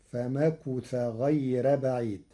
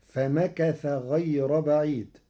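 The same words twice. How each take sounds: First: Slow فمكث with damma on kaf; Warsh reading. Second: Slow فمكث with fatha on kaf; Hafs reading. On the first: الشيخ يقرأ فمكث بضم الكاف. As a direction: recite فمكث as famakuth. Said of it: "بضم الكاف". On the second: Teacher first recites فمكث with fatha. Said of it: "قرأ ورش كلمة فمكث". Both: Shown as a demonstration.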